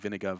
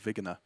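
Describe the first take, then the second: First: The consonants are in their usual order. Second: The N and G sounds are swapped.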